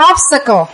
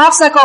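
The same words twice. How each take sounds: First: Teacher models "obstacle" for the class, stress up front; stress on first syllable. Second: "obstacle" with the stress pushed onto "sta"; imitating a student's mistake, "obstacle" stressed on the second syllable; wrong stress on second syllable. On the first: "obstacle" stressed on "ob", then falling. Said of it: "Mình đọc là obstacle". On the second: Teacher mimics the wrong "obstacle", second syllable stressed. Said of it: "Bác nhấn chữ thứ hai là chữ đó". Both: Shown as a demonstration.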